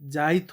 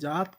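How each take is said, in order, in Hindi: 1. t से पहले 'i' स्वर जोड़ा जाता है: jaait। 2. यह एक अक्षर में बोला जाता है: jaat। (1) "जात का जाइत हो गया, ये अपनी हिती होता है" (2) "जैसे जात नॉर्मल चीज हो गया"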